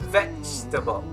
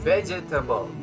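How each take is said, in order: First: The second E is dropped from the word. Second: The second E is pronounced as a syllable. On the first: The speaker calls it right. "It's like the E is silent" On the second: The speaker calls it wrong. "It's not vegetable. Wrong"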